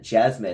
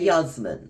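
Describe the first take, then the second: First: The name begins with a J sound. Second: The name begins with a Y sound.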